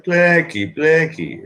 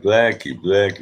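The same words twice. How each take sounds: First: Much higher, calling voice; high-pitched retold mother; mother's voice. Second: Lightly voiced father, near own pitch; a hint of a dad calling a name; retold father, only lightly put on; dad's voice. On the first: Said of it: "I talked to my mother, and, and she was like". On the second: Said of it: "And my dad was smart. He, he was like".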